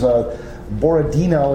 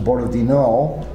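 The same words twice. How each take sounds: First: The stress falls before the last syllable. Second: The stress falls on the last syllable. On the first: The speaker calls it wrong. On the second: The speaker calls it right.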